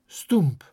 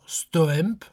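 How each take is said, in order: First: It is said with the local pronunciation. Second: It is said the way the letters read. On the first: "se prononcera bien stoemp" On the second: "bien que s'écrivant stoemp"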